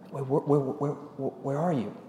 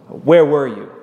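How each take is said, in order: First: The question sounds warm and caring. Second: The question sounds harsh and accusing. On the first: The asker is concerned and seeking the listener. "you could also read that in a very loving way, as a concern" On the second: The asker is accusing the listener. "You could read that in a very negative tone"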